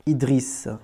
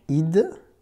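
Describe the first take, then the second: First: Said in the usual way. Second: Idriss broken into Id, dri, then a separate hissed S; sounded out. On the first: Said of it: "c'est ton premier prénom". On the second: Shown as a demonstration. Teacher shows pupil the name's final sound, sounding out Idriss piece by piece. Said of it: "t'as le son S".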